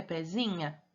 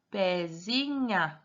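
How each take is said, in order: First: Said in the usual way. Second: Pezinha stretched slowly, every syllable held; drawn-out trial reading. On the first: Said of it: "Será que é pezinha?". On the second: Shown as a demonstration. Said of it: "Vamos tentar". (pezinha bem arrastado, testando cada sílaba)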